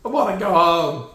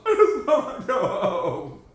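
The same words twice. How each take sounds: First: Said in the usual way. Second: Laughing while whining to go home; half-laughed plea to go home. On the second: Real, not acted. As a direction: laugh through the complaint. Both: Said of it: "Please let me leave".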